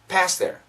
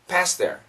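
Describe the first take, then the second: Both takes have the same delivery.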